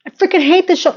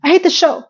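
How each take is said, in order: First: High, heavier emphasis on hate; stronger vent. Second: High, emphatic hate; mean every word; hateful vent. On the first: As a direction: lean harder into it. Venting again stronger. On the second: Venting at the show. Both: Real, not acted.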